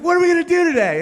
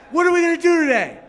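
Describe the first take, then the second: First: High and loud eager puppy; excited dog voice. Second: High, loud, fast and thrilled puppy; excited dog voice. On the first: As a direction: ask it like the best day ever. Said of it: "So he's like". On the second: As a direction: burst with doggy joy, faster. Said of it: "He goes". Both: Retold or imitated.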